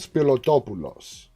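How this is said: The name is said with Greek pronunciation. The speaker calls it right. "if I say it in Greek like that, it comes out perfect"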